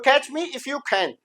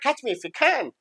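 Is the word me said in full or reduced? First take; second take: full; reduced. First: Every word, including me, is said in full. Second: The word me is short and reduced. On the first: "ये पूरी बात है" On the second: "लेकिन वो बोलेगा"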